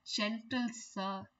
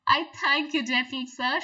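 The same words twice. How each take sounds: First: Slow, softer gentle sir; a soft, charmed little fly. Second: Lightly voiced fly, pleased and polite; a touch of a charmed little fly; flattered fly. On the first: Retold or imitated. Teacher showing the fly softening to the spider, slow and soft. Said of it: "she says". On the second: Fly thanking the spider for his praise, pleased. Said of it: "she said".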